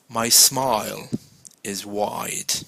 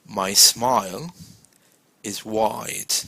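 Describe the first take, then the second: The two takes are said the same way.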